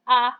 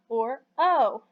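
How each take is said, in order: First: A short vowel, as in 'hot'. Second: A long vowel, like the letter's name 'oh'. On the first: "A is the short sound" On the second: "o is the long sound"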